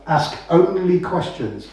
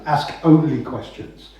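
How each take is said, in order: First: Only drawn out and hit; slow, lean on the word only; stress on only. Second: Slow and firm on the word only; stress on only. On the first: Coach telling homeowners to ask only questions, stressing only. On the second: Coach repeating the rule, stressing only. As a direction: only hit again, slower. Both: Shown as a demonstration.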